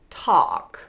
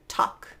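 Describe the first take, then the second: First: A dark L is heard before the k. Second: The vowel runs straight into k without L. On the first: "You could move it backwards" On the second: "They're just going to be pronounced with a vowel sound"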